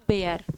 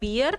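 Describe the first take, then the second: First: The vowel sounds like 'bare'. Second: The vowel sounds like 'beer'. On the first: It means to endure. "अगर इसका मतलब सहन करना है तो इसका प्रोनाउंसिएशन होगा बेयर" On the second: It means the animal. "अगर इसका मतलब भालू है तो इसका प्रोनाउंसिएशन होगा बियर"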